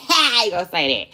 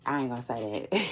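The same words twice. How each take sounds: First: Laughing louder and faster; laughing, quick. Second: Said in the usual way. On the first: Real, not acted. Laughing to viewers, refusing to say it. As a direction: laugh through it.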